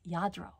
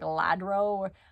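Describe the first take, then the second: First: The name begins with a Y sound. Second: The name begins with an L sound. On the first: The speaker calls it right. "but it's Yadro" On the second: The speaker calls it wrong. "I used to say like Ladro"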